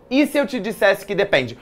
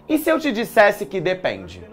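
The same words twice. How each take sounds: The two takes are said the same way.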